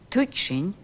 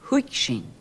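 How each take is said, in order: First: The word begins with a t sound. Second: The word begins with an h sound.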